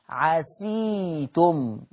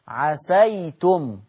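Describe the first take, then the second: First: The s is followed by an i vowel. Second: The s is followed by an a vowel.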